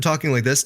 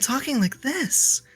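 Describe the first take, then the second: First: It is spoken in a low, natural pitch. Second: It is spoken in a very high pitch.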